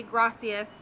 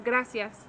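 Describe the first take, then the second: First: Gracias with an English-sounding r; learner's mispronunciation. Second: Gracias with a tapped Spanish r; native Spanish pronunciation. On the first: Teacher showing a learner's slip, gracias with an English r. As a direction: say gracias like a beginner, without the Spanish tapped r. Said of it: "you might say gracias instead of". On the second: Teacher giving the native model, gracias with tapped r. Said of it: "instead of gracias". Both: Shown as a demonstration.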